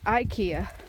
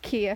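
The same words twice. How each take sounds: First: It starts with an 'eye' sound, American style. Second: It starts with an 'ee' sound, Swedish style.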